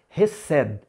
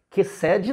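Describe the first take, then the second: First: The word begins with a raspy throat sound. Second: The word begins with a hard k sound. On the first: The speaker calls it right. "É um som raspadinho na garganta, um som de R" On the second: The speaker calls it wrong. "cuidado, não vão falar aí que cede"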